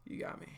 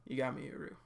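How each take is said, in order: First: Whisper. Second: Said in the usual way. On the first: Real, not acted.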